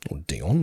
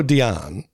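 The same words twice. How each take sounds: First: Dion said as DEE-on; alternative pronunciation. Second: Dion said as dee-AHN; alternative pronunciation. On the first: Co-host guessing an actor's name, Dion as DEE-on. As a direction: say "Dion" with a short ON ending. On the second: Co-host guessing an actor's name, Dion as dee-AHN. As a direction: say "Dion" with an open AH ending. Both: Shown as a demonstration. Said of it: "however he pronounces his name".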